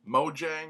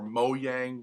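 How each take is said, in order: First: The name is said with an English pronunciation. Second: The name is said with a Swedish pronunciation. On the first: "which is usually how I pronounce it" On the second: "which I guess is the Swedish pronunciation"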